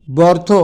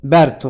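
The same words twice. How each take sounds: First: ব্যর্থ said as "bortho"; spelling pronunciation. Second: ব্যর্থ said as "bertho"; spoken pronunciation. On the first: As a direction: say ব্যর্থ with a rounded vowel, "bortho". (বানান-অনুযায়ী "বর্থ" উচ্চারণ) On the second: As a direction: say ব্যর্থ with a front vowel, "byartho". (প্রচলিত "ব্যার্থো" উচ্চারণ) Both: Shown as a demonstration. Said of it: "উচ্চারণে".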